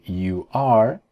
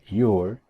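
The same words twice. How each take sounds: First: "you are" as two full words, rising; uncontracted "you are", stronger and rising; full form. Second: "your" as one short syllable; single-syllable "your"; contracted form. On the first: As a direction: keep "you" and "are" separate. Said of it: "En vez de escribir". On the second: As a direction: run "you are" together into "your". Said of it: "decían". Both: Shown as a demonstration.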